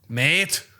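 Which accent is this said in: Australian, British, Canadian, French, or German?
Australian. It is said in an Australian accent. "What about Australian?"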